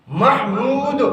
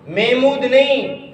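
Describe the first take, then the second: First: محمود as "MAH-mood"; correct pronunciation. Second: محمود as "MAY-mood"; wrong pronunciation. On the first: Teacher giving class the right name, correct pronunciation. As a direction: open "a", clear h in محمود. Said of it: "صحیح معنوں میں یاد کرنا". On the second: Teacher rejecting the common form, wrong pronunciation. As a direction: swallow the h of محمود. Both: Shown as a demonstration.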